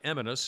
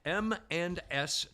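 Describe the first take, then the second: First: It is said quickly, run together as one word. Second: It is said slowly, each part separate. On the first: The speaker calls it wrong. "it's not Eminus" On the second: The speaker calls it right. "I say it slowly"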